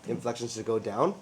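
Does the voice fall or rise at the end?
rise. The voice rises at the end of the phrase. The speaker sounds unsure. The speaker calls it wrong. "that's how you guys sound"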